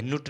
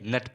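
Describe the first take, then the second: First: नुट with a short oo vowel; wrong pronunciation. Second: नट with a short uh vowel; correct pronunciation. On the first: Teacher showing learners the misreading, wrong pronunciation नुट with oo. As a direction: say नुट, oo as in "put". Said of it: "नुट नहीं". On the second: Teacher correcting learners' reading, correct pronunciation नट with uh. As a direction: say नट like English "nut", pitch dropping. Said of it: "नट पढ़ेंगे". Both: Shown as a demonstration.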